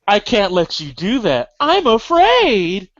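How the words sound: It sounds frightened, as if something scared her.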